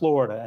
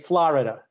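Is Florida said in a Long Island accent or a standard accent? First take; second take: standard; Long Island. First: It is said with a standard accent. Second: It is said with a Long Island accent. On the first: This is how people elsewhere say it. "not Florida" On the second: This is how locals from one region say it. "People on Long Island say Florida"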